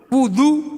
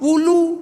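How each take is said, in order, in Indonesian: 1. Konsonan tengahnya bunyi d. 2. Konsonan tengahnya bunyi l.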